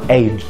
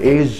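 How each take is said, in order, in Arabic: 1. الصوت الأخير هو dj قوي. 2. الصوت الأخير هو zh ناعم. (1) "اسمها ايج" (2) "ما تقولش ماي ايج"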